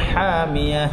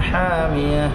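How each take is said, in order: No difference in how they are said.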